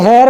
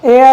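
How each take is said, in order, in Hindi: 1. इस शब्द की शुरुआत 'एच' की ध्वनि से होती है। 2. इस शब्द की शुरुआत स्वर की ध्वनि से होती है। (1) "इसे हेयर मत बोलना" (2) "ये एयर होता है"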